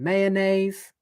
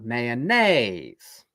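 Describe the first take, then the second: First: The pitch stays up on the last syllable. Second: The pitch falls on the last syllable. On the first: The sentence continues. "there, I don't go down" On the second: The sentence ends here. "I have to then go down"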